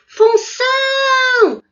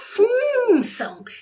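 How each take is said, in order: First: The stress is on the last syllable. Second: The stress is on the first syllable. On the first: The speaker calls it right. "essa palavra é oxítona" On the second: The speaker calls it wrong. "não é função"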